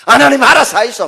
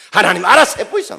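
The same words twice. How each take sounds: First: Loud, high Gyeongsang "알아서 하이소" with a falling end; 경상도 사투리로 "알아서 하이소"라고 던지듯; Gyeongsang dialect resignation. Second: Loud, high Gyeongsang "알아서 해보이소", falling shrug at the end; 경상도 사투리로 "알아서 해보이소"라고 체념하듯; Gyeongsang dialect resignation. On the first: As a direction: toss the problem to God in dialect. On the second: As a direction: hand it all over to God in dialect. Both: Retold or imitated. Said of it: "힘 빠지면 뭡니까".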